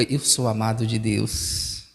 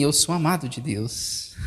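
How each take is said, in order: First: Tender confession. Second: Hushed personal testimony; quiet sincere confession. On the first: Shown as a demonstration. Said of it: "Olhe para quem tá ao seu lado e diga". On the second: Real, not acted. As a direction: let it land gently. Pastor's own quiet confession.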